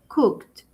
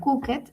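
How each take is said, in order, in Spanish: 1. La terminación es solo un sonido t. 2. La terminación se dice como una sílaba extra. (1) "es cooked, con T" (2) "yo no digo cooked, que muchas veces podríamos pensar que porque tiene ed"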